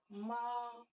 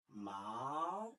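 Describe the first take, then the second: First: The pitch stays high and level. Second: The pitch rises from middle to high. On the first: It means mother. "le premier ton est manifesté par euh, les traits plats" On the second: It means hemp. "le deuxième ton est représenté par un trait montant"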